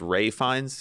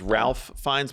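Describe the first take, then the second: First: The first name is said without an L sound. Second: The first name is said with an L sound. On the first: The speaker calls it right. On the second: The speaker calls it wrong.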